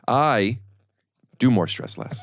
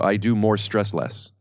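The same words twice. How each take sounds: First: It is said with a short pause inside. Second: It is said straight through without a pause.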